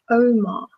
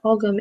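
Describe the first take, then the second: First: The word is said without a g sound. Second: The word is said with a hard g. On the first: The speaker calls it right. "it's Omar, or something to that effect" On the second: The speaker calls it wrong. "Ogham is not Ogham"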